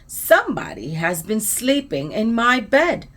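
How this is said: It is said in a loud, growly voice. "said in his loud, growly voice"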